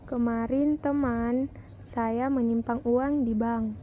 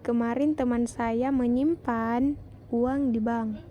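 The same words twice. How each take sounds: First: The word teman is stressed. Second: The word menyimpan is stressed. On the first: "Pada kalimat kedua mendapat tekanan pada kata teman" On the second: "kalimat keempat mendapat tekanan pada kata menyimpan"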